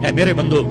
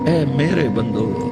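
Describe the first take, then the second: First: It is said in a flat, plain tone. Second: It is said in a warm, tender tone. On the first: The speaker calls it wrong. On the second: The speaker calls it right.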